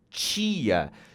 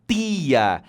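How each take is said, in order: First: The t is hissed, like ch. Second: The t is plain, not hissed. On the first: This is how it is said in Brasília. "falamos o T chiado" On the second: This is how it is said in other regions. "em outras regiões brasileiras, você vai encontrar tia"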